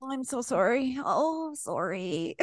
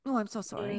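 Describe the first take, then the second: First: Higher, soft apologetic sorry; apologetic Canadian. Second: Soft overdone apology; apologetic Canadian. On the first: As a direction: whimper out more sorries. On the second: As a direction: mumble a meek sorry. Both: Retold or imitated. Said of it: "making fun of us 'cause we apologized".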